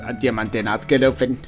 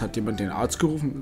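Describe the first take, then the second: First: It is said in an exaggerated troll voice. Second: It is said in a plain, normal voice. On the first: The speaker calls it right. "Ich bin ein Troll, ich muss Kohle sprechen" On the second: The speaker calls it wrong. "Weil der spricht das so normal aus"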